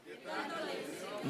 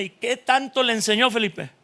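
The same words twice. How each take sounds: First: Whispered, breathy repeat of the question; hushed aside. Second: Said in the usual way. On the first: Acted. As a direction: drop to a whisper as if to yourself.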